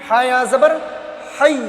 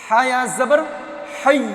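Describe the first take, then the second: No difference in how they are said.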